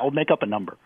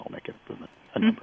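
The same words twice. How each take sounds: First: It is said in the speaker's plain accent. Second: It is said in a French accent.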